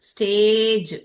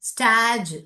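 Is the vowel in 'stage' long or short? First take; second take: long; short. First: The vowel is long, like 'ay'. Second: The vowel is short, like 'a'. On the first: The speaker calls it right. "So நான் இதை long சவுண்டா தான் படிப்பேன்" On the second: The speaker calls it wrong. "இது தப்பு"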